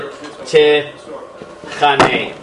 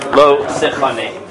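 First: The first vowel sounds like a plain A. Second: The first vowel sounds close to O. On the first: The speaker calls it wrong. "That is wrong" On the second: The speaker calls it right. "Please always pronounce it that way"

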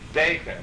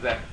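First: The first vowel is a tzere sound. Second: The first vowel is not a tzere. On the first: The speaker calls it right. "With its Seir. Zeicher" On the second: The speaker calls it wrong. "not Zeicher"

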